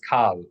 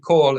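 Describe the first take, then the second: First: The vowel is an 'ah' sound. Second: The vowel is an 'oh' sound. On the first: The speaker calls it wrong. "It's it's like jarring to the ear" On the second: The speaker calls it right. "They pronounce the vowel in the classical way"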